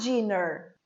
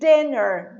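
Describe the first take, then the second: First: The word begins with a j-like sound. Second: The word begins with a plain d sound. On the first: The speaker calls it wrong. "not dinner, as many people say. If you say j" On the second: The speaker calls it right. "So the pronunciation is dinner"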